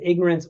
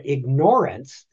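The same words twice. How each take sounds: First: The word is said as one smooth word. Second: The word is split into two parts. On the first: Not knowing something. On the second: Choosing to ignore something.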